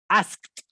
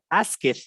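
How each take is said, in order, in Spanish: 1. La terminación se pronuncia como un sonido de t. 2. La terminación se pronuncia como una sílaba extra. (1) "Esa ed se pronuncia como una T" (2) "tú lo pronunciarías como asked"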